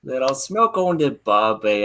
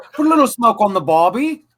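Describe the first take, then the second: First: Mock Australian accent. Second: Higher put-on Australian accent; mock Australian accent. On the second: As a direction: lay on a jokey Aussie voice. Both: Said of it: "Can you do it in a British accent?".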